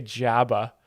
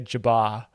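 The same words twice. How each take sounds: First: Jabba as JAB-uh, "a" as in cat; American pronunciation. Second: Jabba as juh-BAH; supposed Canadian pronunciation. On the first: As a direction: stress the first syllable of Jabba, JAB-uh. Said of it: "we say, we say". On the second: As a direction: hit the last syllable of Jabba, juh-BAH. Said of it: "pretty sure Canadians say Jabba". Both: Shown as a demonstration.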